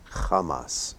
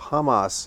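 First: The word begins with a throaty ch sound. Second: The word begins with a plain h sound. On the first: The speaker calls it right. "that H is to be pronounced as a ch" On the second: The speaker calls it wrong. "you often hear referred to as Hamas"

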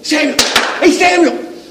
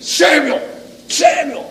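First: It is called out in a joyful tone. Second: It is called out in a commanding tone.

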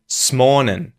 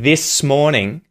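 First: The words are squeezed together into one word. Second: Both words are said fully and separately. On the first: "saying smornin'" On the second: "instead of saying this morning"

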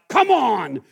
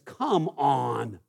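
First: It sounds angry and threatening. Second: It sounds scornful and disappointed.

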